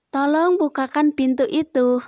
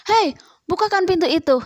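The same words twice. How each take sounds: First: A courteous, gentle ask with tolong; polite request. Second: Higher, louder and fast, a rude bossy "Hei"; snapping command. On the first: Teacher showing pupils the polite way to ask, courteous. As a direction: ask nicely, no edge in the voice. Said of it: "Mengucapkan kalimat perintah harus dengan sopan". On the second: Teacher demonstrating the rude way to order, snapping. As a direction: bark the order at them. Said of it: "jangan sambil membentak". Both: Shown as a demonstration.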